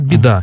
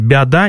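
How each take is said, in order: First: The first syllable has an 'e'-like vowel. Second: The first syllable has an 'a'-like vowel. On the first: The speaker calls it right. "скажут «беда»" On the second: The speaker calls it wrong. "«бяда» не скажут"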